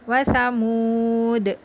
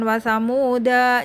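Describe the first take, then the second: First: The word ends on the final consonant. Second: The word ends with an added 'a' vowel. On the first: The speaker calls it right. "Tapi tetap wasamud" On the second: The speaker calls it wrong. "maka jangan wasamuda, jangan gitu"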